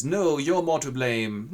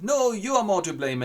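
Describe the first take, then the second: First: Slow, loud insistent reply; slow insistence. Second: "are" hit high and loud; stress on are. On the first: Wurm slowly throws the blame back. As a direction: drag the blame back at him. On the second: Wurm insists louder at the president, stressing "are". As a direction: punch the word "are". Blame contest. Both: Acted.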